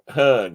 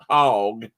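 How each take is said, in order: First: The first syllable is said like 'hug'. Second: The first syllable is said like 'hog'. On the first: The speaker calls it right. "it's more like hug" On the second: The speaker calls it wrong. "this isn't hog"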